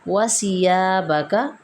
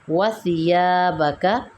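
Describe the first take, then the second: First: The consonant has a whistling hiss. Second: The consonant is soft with no hiss. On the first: The speaker calls it wrong. "जैसे ही हम सीटी की आवाज़ देंगे" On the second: The speaker calls it right. "सा नरमी से अदा होगा"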